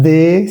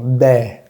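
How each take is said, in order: First: De with closed Spanish e; wrong closed vowel. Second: De with open "eh", like dè; right open vowel. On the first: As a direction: say de as a drawn-out "dé". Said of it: "No es de". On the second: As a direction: say de with mouth wider open. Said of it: "sino de". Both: Shown as a demonstration.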